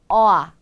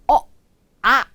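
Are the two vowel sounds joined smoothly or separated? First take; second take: joined; separated. First: The two vowels glide smoothly into one sound. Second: The two vowels are said as separate sounds. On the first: The speaker calls it right. "부드럽게 부드럽게 연결하실 때" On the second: The speaker calls it wrong. "이렇게 연결하실 게 아니라"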